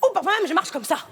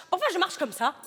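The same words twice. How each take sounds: First: Put-on fast, loud, high African accent; louder caricature accent. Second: High, laughing hammed-up African accent; caricature African accent. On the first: Showing off a second walk to the casting director, louder and faster. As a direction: push the caricature further, faster. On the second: Performing for the casting director in a hammed-up African accent. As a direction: play the African cliché to the hilt. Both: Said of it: "je veux un accent africain".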